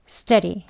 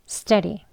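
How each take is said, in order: The two takes are said the same way.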